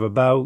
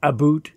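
First: It is said in an American accent. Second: It is said in a Canadian accent.

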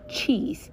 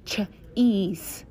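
First: The word is said as one smooth sound. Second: The word is broken into separate sounds. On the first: The word is spoken properly as a whole. "We put them all together" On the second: The word is being sounded out piece by piece. "Sounding it out is ch-ease"

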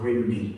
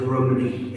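First: The first vowel sounds like 'ih'. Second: The first vowel sounds like 'uh'. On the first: The speaker calls it wrong. "or as they say, the Bells of Rimney. And I write in the book, it's the wrong pronunciation" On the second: The speaker calls it right. "because I put the Bells of Rumney in"

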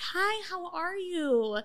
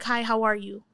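First: The greeting sounds soft and timid. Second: The greeting sounds firm and confident.

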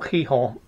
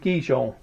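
First: The name is said with a Spanish-style pronunciation. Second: The name is said with an English-style pronunciation.

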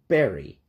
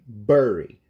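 First: It is said the common American way. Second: It is said the way some English accents say it. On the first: The speaker calls it right. "o certo e o que eu mais ouvi nos Estados Unidos é bury" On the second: The speaker calls it wrong. "sotaques na Inglaterra que falem bury"

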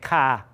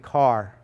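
First: The word ends without an r sound. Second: The word ends with an r sound. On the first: This is a regional variant pronunciation. The speaker calls it wrong. "that's analogous to me saying ka" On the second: This is the standard pronunciation. The speaker calls it right. "When it's really car"

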